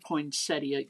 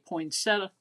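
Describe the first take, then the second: First: It is said in a fancy, posh way. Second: It is said in a Southern accent.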